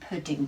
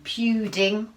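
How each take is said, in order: First: The first vowel is a short 'oo' sound. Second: The first vowel is a long 'yoo' sound. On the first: The speaker calls it right. "Let's try an uh" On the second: The speaker calls it wrong. "Let's try U"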